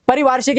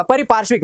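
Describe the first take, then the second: First: परिवार्षिक with v, pari-vaar-shik; mistaken v form. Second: परिपार्श्विक with p and shv; corrected p form. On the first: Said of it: "का क्या हो जाएगा". (परिवार्षिक, बीच में वार) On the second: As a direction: say परिपार्श्विक as pari-paarsh-vik. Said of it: "हो जाएगा". (परिपार्श्विक, बीच में पार्श्व) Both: Shown as a demonstration.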